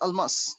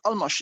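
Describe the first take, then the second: First: The name ends with an s sound. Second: The name ends with an sh sound. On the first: The speaker calls it right. "It's Almas" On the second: The speaker calls it wrong. "it's not Almash"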